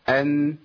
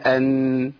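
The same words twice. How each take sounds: First: The final nasal sound is held only briefly. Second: The final nasal sound is held longer. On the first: The speaker calls it right. "لان احنا التوسط زمن جريان الصوت فتره بسيطه قوي" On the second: The speaker calls it wrong. "لا لو زودت شويه يبقى انت عملت غنه مبالغ فيها"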